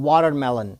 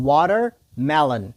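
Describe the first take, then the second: First: Said in the usual way. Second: Watermelon broken into "water", pause, "melon"; slow, split word. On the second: Shown as a demonstration. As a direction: say watermelon slowly in two separate parts. Teacher splits word for repetition. (watermelon ورو، په دوو برخو کې)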